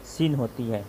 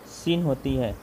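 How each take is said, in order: Both takes have the same delivery.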